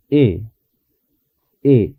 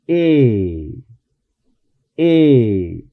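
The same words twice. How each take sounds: First: E said softly, lips not pulled back; soft English e. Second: E said with lips pulled back wide; tense Spanish e vowel. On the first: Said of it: "sino algo suave". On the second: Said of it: "cuando yo pronuncio una E en español, retraigo los labios". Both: Shown as a demonstration.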